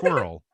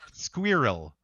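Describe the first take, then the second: First: Squirrel is said in an American accent. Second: Squirrel is said in a British accent. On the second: "the British say it's squirrel"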